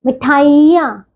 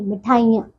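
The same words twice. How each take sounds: First: मिठाइयाँ with a drawn-out "ee"; mispronounced मिठाइयाँ. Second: Said in the usual way. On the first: Shown as a demonstration. Teacher shows pupils the error, long "ee" in मिठाइयाँ. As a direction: stretch the middle of मिठाइयाँ, "mithaa-EE-yaan". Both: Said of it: "नहीं".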